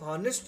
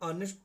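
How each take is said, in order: First: The word begins with an h sound. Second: The word begins with a vowel sound. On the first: The speaker calls it wrong. "इसको हॉनेस्ट नहीं पढ़ते हैं" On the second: The speaker calls it right. "ओ से पढ़ते हैं"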